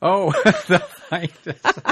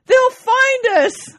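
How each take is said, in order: First: Real laughter echoing the joke; laughing repeat. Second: Very high, loud, slow hammed-up cry; punchline shouted with mock joy. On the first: Real, not acted. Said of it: "Oh, that's great". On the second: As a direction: shout it in triumph, drawn out. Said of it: "He says".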